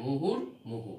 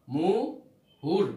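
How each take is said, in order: First: Said in the usual way. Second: মুহুর stretched very slowly and louder; slow teacher's demo of মুহুর; drawn-out pronunciation. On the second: Shown as a demonstration. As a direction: draw out মুহুর, leaning on the final r. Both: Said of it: "এই হর পরে রেপের রর উচ্চারণটা চলে আসবে".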